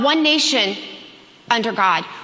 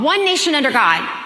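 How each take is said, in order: First: There is a pause after 'nation'. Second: There is no pause after 'nation'.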